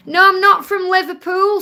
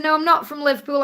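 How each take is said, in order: First: Louder and higher, stressing not; a loud, insistent no, I'm not from Liverpool; emphatic denial. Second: Said in the usual way. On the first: Real, not acted. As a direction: firmly set the record straight. Answering a viewer's question.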